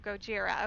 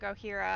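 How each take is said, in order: First: The middle consonant is a J sound. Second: The middle consonant is an H sound. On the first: The speaker calls it right. "So Gojira. Okay. All right. Now I know, so I can pronounce that properly" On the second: The speaker calls it wrong. "I was saying Gohira. I guess because I'm so close to Mexico, all the J's are silent here"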